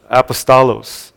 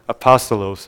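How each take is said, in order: First: "apostolos" as ap-uh-STAH-lohs; Greek pronunciation. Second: "Apostolos" as uh-PAH-stuh-lohs; softer, lower "Apostolos", said uh-PAH-stuh-lohs; alternative Greek pronunciation. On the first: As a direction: stress the third syllable of "apostolos", STAH. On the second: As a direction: stress the second syllable of "Apostolos", PAH. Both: Shown as a demonstration. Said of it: "The actual Greek word is pronounced".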